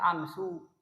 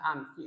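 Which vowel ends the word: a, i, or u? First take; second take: u; i. First: The word ends with a u vowel. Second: The word ends with an i vowel. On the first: The speaker calls it wrong. "Tidak boleh dibaca amsu" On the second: The speaker calls it right. "Yang benar adalah amsi"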